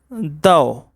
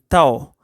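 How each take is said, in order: First: The word begins with a D sound. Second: The word begins with a T sound. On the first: "pronounce it like thou with a D sound" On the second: "pronounce it with a, a sound like T"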